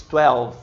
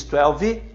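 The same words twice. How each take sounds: First: "twelve" ending on a mute v; correct twelve. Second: "twelve" as "telvi", extra vowel; wrong twelve. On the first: Teacher models correct twelve, no final vowel. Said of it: "você diz twelve". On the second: Teacher shows wrong twelve with extra vowel. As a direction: add an i to the end of "twelve". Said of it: "Você não diz twelve". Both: Shown as a demonstration.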